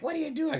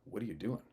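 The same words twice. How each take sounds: First: Very high-pitched imitation of an aunt; high mock-aunt question; alarmed aunt. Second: Lightly voiced family friend, softer; man questioning. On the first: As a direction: mimic the aunt in a high squeal. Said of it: "my aunt's like". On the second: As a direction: ask it quietly, as the retold man. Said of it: "He's like".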